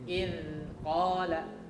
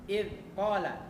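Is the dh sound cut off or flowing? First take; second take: flowing; cut off. First: The dh sound flows on continuously. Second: The dh sound is cut off abruptly. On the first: The speaker calls it right. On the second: The speaker calls it wrong. "itu salah"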